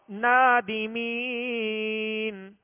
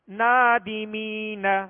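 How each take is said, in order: First: The word stops short on its final consonant. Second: The final syllable is carried on with a vowel. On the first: The reading stops at this word. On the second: The reading continues into the next word.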